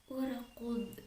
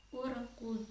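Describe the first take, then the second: The two takes are said the same way.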